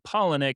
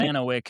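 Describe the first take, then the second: First: The name is short and ends in 'nick'. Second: The name is long and ends in 'wick'. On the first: The speaker calls it right. "it's pronounced Polinic" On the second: The speaker calls it wrong. "I said it super wrong"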